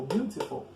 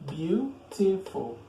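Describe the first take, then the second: First: Said in the usual way. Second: BEAUTIFUL slowly split into three syllables. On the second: Shown as a demonstration. Teacher counting three syllables in a long adjective, syllable by syllable. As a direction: say Beautiful in three drawn-out beats. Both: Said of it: "As a three syllables".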